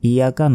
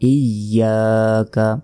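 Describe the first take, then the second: First: The y sound is short and single. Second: The y sound is doubled and held. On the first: The speaker calls it wrong. "ইয়াকা নয়" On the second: The speaker calls it right. "ইয়ার উপর যেই তাজদিদ রয়েছে"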